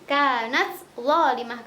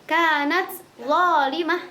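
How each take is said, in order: First: The t is pronounced clearly before the next word. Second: The same.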